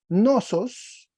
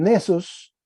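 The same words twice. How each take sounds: First: "nosos" with an o in the first syllable, slow and drawn out; misread Greek word. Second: "nesos" with an e in the first syllable, slowed; corrected Greek word. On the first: Teacher misreads the Greek word to the class, slow "nosos" with o. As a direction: read "nosos" with NO-, the slip before the fix. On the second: Teacher corrects himself for the class, slow "nesos" with e. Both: Shown as a demonstration. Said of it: "perdón, nesos".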